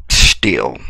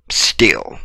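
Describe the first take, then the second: First: Said in the usual way. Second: Whispered Still, soft and unvoiced. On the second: Shown as a demonstration. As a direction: breathe the word Still as a whisper. Repeated, dropping to whisper.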